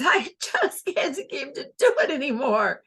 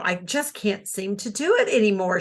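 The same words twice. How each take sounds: First: Higher, laughing through every word; laughing the line. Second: Said in the usual way. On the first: Shown as a demonstration. Teacher shows a character laughing the whole line, higher and laughing. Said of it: "the way she said it was". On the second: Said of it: "she laughed".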